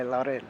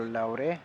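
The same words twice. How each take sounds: First: Said in the usual way. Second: "Laure" tried the Spanish way, ending in a sounded e; tentative Spanish pronunciation. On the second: Shown as a demonstration. Commentator guessing at a player's name, "Laure" with tentative Spanish ending. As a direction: say "Laure" as two syllables, unsure of the Spanish. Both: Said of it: "supposed to pronounce that with a Spanish accent".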